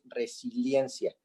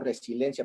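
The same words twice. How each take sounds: First: The middle is said as 'silien', with 'i'. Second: The middle is said as 'silen', without 'i'. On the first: The speaker calls it right. "pero es resiliencia" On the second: The speaker calls it wrong. "yo pronuncio resiliencia"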